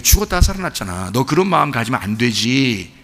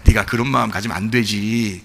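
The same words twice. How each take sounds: First: Low, soft fatherly rebuke; a hint of a patient father; gentle father. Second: Low, soft fatherly rebuke; gentle father. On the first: Father reminds elder son brother came back, softly. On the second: Retold or imitated. Father gently rebukes jealous elder son, low and soft. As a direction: coax the son like a patient father.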